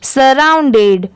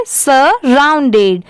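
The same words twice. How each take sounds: First: surrounded slowly, joined into one word; blended repeat. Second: surrounded very slow, "sa... round-ded"; slow repeat-after-me. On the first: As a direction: blend "sa-round-ded" for the learner. (Surrounded जोड़कर, साफ़ उच्चारण) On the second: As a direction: split surrounded slowly for copying. (Surrounded धीरे-धीरे, तोड़कर) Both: Shown as a demonstration. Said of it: "एक बार फिर से repeat करिए".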